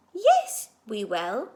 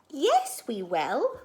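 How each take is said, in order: First: Louder insistent yes. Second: Insistent yes. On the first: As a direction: push back harder the second time. Max insists more strongly. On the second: Max insists they'll find him. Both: Acted.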